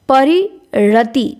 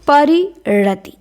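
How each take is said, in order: The two takes are said the same way.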